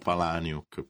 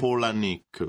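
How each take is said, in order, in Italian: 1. Il nome non suona come 'Pola' seguito da 'Nick'. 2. Il nome suona come 'Pola' seguito da 'Nick'. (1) "Molti, esatto, dicono Palahniuk, però" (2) "si dovrebbe dire Palahniuk, perché erano i nomi dei nonni, Pola, esatto. E Nick"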